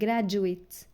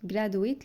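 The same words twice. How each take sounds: First: The d is pronounced as a j sound. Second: The d is pronounced as a plain d. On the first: The speaker calls it right. "لا هي graduate" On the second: The speaker calls it wrong. "في ناس بتنطقها غلط"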